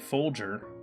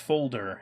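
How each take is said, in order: First: The middle consonant is a soft J-like sound. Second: The middle consonant is a hard D sound. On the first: The speaker calls it wrong. "sounds like it's an accent" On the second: The speaker calls it right. "It's a hard D sound"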